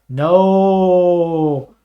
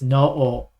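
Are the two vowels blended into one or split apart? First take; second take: blended; split. First: The vowels blend into one long drawn-out sound. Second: The two vowels are said as separate sounds. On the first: The speaker calls it wrong. "you do not say no like you're a ghost practicing grammar" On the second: The speaker calls it right. "You gotta split them up"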